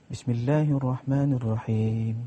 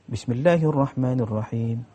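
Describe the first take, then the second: No difference in how they are said.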